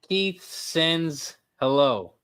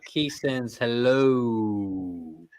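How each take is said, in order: First: The final vowel of hello is short. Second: The final vowel of hello is drawn out. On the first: The speaker calls it wrong. "I didn't pronounce it right" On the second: The speaker calls it right. "You're right"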